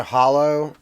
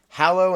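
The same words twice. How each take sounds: First: HOLLOW with an open AH; drawn-out Hollow, as in empty; AH-sound hollow. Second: HALLOW with A as in cat; drawn-out Hallow, starting HAL; short-A hallow. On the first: Contrasting two close words, slow Hollow with AH. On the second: Contrasting two close words, slow short-A Hallow. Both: Shown as a demonstration. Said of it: "Those don't sound the same".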